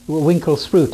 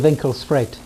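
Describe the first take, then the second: First: The name is said with an English pronunciation. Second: The name is said with a local, non-English pronunciation. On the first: This is how English speakers say it. The speaker calls it wrong. "the English mispronounce it" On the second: This is how the name should be said. The speaker calls it right. "It should be"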